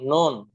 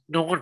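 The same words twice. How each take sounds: First: It is said without sound through the nose. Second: It is said with sound through the nose. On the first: The speaker calls it wrong. "itu nggak ke hidung berarti teman-teman salah" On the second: The speaker calls it right. "Nah, seperti itu"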